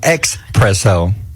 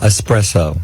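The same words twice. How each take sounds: First: It starts with an 'ex' sound, like 'expresso'. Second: It starts with a plain 'es' sound, no 'ks'. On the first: The speaker calls it wrong. "I hear people putting an X in it. It's not espresso" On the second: The speaker calls it right. "There's no X"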